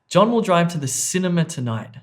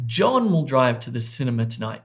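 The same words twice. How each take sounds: First: The stress falls on the word cinema. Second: The stress falls on the word John. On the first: He is going to this place, not another one. "not to the restaurant" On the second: It is this person, not someone else, who will drive. "not Sally"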